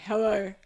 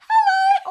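First: It is said in a low voice. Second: It is said in a high voice.

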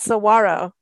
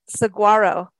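First: The g is silent, sounding like a w. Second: The g is pronounced as a hard sound. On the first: The speaker calls it right. "You had to teach me it's saguaro" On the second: The speaker calls it wrong. "I said saguaro cactus"

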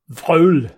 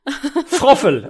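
First: The word is reduced, with few consonants heard. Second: Every letter is sounded, giving two full syllables. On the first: "I will try to pronounce it myself first" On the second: "I would have pronounced it froffel"

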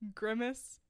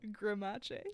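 First: It is said the plain English way. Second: It is said Italian-style, rhyming with Versace. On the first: "It's like Grimace" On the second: "but pronounced like Versace"

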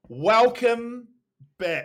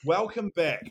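First: It is said loudly, with big excitement. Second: It is said more softly and calmly.

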